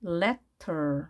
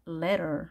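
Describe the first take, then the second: First: "letter" in two beats, crisp T before -er; letter with a clear T. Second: "letter" with the T softened to a flap, like "lerer". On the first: Korean teacher building letter from syllables, clear T. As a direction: say "letter" as le plus a weaker ter. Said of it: "털 이렇게 되겠죠". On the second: Teacher reading the phonetic symbol, flapped-T letter. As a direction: say "letter" with an R sound for the T. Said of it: "이 발음 기호는 R 발음 하라는 얘기입니다". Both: Shown as a demonstration.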